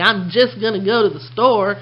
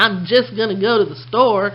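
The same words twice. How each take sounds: First: It is said loosely in a Texas accent. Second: It is said loosely in a Texas accent.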